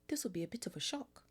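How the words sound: It is said in a put-on character voice.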